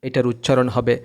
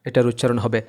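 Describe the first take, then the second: The two takes are said the same way.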